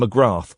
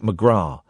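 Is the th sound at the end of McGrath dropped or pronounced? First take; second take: pronounced; dropped. First: The final th sound is clearly pronounced. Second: The final th sound is not pronounced. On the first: "do you pronounce the th in McGrath" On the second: "or is it McGrath?"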